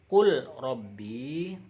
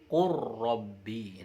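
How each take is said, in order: First: The l sound is pronounced before the r. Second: The l sound merges into a doubled r. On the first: The speaker calls it wrong. "tidak dibaca Qul Rabbi" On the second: The speaker calls it right. "tapi Qur Rabbi, langsung ke huruf ro"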